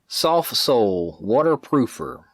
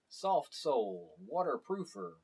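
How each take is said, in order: First: The audio is louder and clearer. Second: The audio is quieter and less clear. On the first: "greatly improves the audio volume and clarity" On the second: "my camera's onboard mic"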